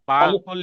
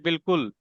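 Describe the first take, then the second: First: The first syllable has a long 'aa' vowel. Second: The first syllable has a short 'i' vowel. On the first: It follows the written letters. The speaker calls it wrong. "बालकुल लिखेंगे" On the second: It is how the word is actually read. The speaker calls it right. "लेकिन पढ़ेंगे बिल्कुल"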